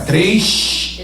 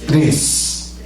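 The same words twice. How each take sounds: First: It is said in a Rio de Janeiro accent. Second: It is said in a Minas Gerais accent. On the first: "Esse negócio de carioca"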